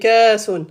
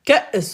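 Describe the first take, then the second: First: A long vowel with no glottal stop. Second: A short vowel followed by a glottal stop. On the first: The speaker calls it wrong. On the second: The speaker calls it right.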